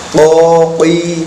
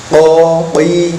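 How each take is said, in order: Both takes have the same delivery.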